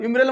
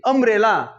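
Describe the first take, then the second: First: The word begins with a 'yuh' sound. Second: The word begins with an 'uh' sound. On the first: The speaker calls it wrong. "युम्ब्रेला म्हणतो का नाही" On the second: The speaker calls it right. "नाही अम्ब्रेला"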